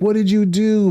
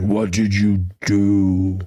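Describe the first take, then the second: First: The question is asked in a gentle, kind tone. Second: The question is asked in a harsh, accusing tone. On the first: It is a caring question with no blame. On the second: It is heard as blame and anger.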